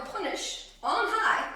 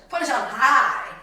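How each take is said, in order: First: Said in the usual way. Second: "high" drawn out and loud; "high" punched loud and long; stress on high. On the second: Shown as a demonstration. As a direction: hit "high" hard and stretch it slowly. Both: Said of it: "not just punish".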